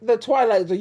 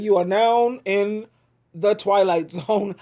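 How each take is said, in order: First: Said in the usual way. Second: Slow, lower spooky announcer intro. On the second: Shown as a demonstration. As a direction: intone it like a TV narrator. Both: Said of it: "I can't do it".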